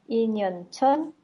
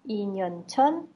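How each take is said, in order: Both takes have the same delivery.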